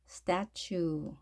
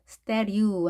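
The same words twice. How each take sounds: First: The second t sounds like a 'ch' sound. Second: The second t sounds like a soft flap. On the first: The speaker calls it right. "statue 이렇게 추 발음하는 것도 주의하셔서" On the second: The speaker calls it wrong. "이 경우에는 statue 하는 것이 아니라"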